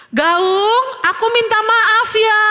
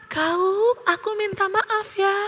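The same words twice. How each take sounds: First: High, drawn-out call of apology. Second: Soft, high, drawn-out repeat; echo. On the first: Theo calls sorry to the echo, calling out. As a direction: call it across a valley. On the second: Valley echo answers Theo's apology, echoing softly. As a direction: give it back like a distant echo. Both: A narrator's reading.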